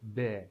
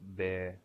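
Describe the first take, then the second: First: The pitch falls from high to low. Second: The pitch stays level and low. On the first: "be as standing" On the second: "be as running"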